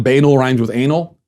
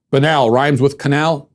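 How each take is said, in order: First: "banal" as BAY-nul, rhyming with anal; wrong pronunciation shown. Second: "Banal" as buh-NAL, rhyming with canal; correct pronunciation. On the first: Host rejects the mistake, demonstrating BAY-nul. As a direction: stress "banal" on a long first syllable. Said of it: "It's not banal rhymes with anal". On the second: Host teaches the right word, slowly saying buh-NAL. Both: Shown as a demonstration.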